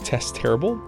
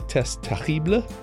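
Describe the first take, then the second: First: The name is said in a plain English accent. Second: The name is said in a French accent.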